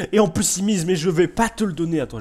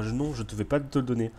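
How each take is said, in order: First: Loud, much higher indignant refusal; loud, high indignant outburst. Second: Said in the usual way. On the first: Real, not acted. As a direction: shout the refusal at the rival bidder. Outbid again, indignant.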